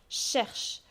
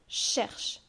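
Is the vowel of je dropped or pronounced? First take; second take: dropped; dropped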